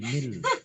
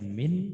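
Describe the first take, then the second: First: The word ends with an l sound. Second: The word ends with an n sound. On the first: The speaker calls it right. "tapi mil" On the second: The speaker calls it wrong. "bukan min"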